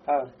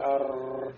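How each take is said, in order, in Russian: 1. Звук r это один лёгкий удар языком. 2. Звук r раскатистый, с несколькими вибрациями. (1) "То есть один раз" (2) "не говорить, да, арр"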